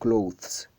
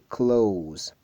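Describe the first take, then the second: First: The word has a 'th' sound before the ending. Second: The word has no 'th' sound, like 'close'. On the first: The speaker calls it wrong. "pas clothes" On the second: The speaker calls it right. "C'est close"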